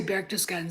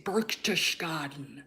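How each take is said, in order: First: Said in the usual way. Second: BERCHTESGADEN mangled slowly and softly, as Burk-tush-gah-den; mocking mispronunciation. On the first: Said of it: "she wouldn't say Berchtesgaden". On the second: Man imitating her deliberately botched place name, slow exaggerated mispronunciation of BERCHTESGADEN. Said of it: "she would deliberately mispronounce".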